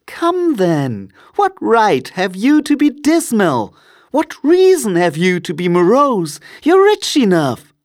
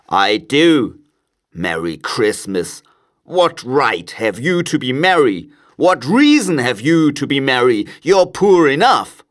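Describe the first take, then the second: First: Very high, lively teasing retort; playful nephew, climbing high and loud; cheerful nephew. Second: Put-on grumpy old miser, rising to a loud finish; indignant miser, pitch climbing as he argues; scornful Scrooge. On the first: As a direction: throw it back in a high-pitched, spirited voice. Nephew answers Scrooge back. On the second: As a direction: scoff with mounting irritation. Scrooge scorns his nephew. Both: A narrator's reading.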